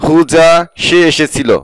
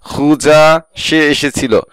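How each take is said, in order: Both takes have the same delivery.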